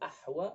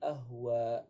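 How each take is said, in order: First: The h is the deep throat ha sound. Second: The h is a light plain h sound. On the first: It means blackish. The speaker calls it right. "yang seharusnya ahwa berarti kehitam-hitaman" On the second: It means destroyed. The speaker calls it wrong. "menjadi ahwa ya. Ahwa itu bisa artinya maknanya hancur"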